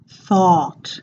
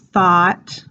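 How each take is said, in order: First: The vowel is open, long and rounded. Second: The vowel is less open and less rounded. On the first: The speaker calls it right. "the open awe sound ... really rounding that out" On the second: The speaker calls it wrong. "instead of thought"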